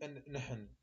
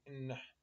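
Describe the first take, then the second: First: The two n sounds are kept separate. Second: The two n sounds merge into one. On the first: The speaker calls it wrong. "ما نقول إن نحن" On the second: The speaker calls it right. "نقول النحن"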